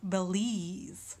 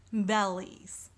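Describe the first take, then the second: First: Belize wrongly stressed on "lize"; stress on second syllable. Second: Bellies with the stress on "Bel"; stress on first syllable. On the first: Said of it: "Bellies instead of belize". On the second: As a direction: lean on "Bel" in "Bellies", letting "lies" drop. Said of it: "more of an emphasis on bell". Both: Shown as a demonstration.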